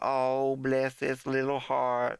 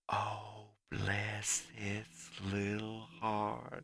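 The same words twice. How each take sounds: First: It is said fairly quickly and loudly. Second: It is said slowly and quietly.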